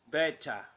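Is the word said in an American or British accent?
British. The t is a strong, crisp t. "British beta"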